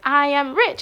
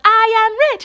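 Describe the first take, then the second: First: Said in the usual way. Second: High, loud chant back; crowd shouting back. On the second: Retold or imitated. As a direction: echo it like a roaring crowd.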